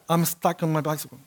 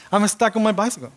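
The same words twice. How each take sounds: First: Said in the usual way. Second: Faster, laughing through the words; amused repeat, breaking into laughter. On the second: Real, not acted. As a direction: laugh at yourself as you repeat it.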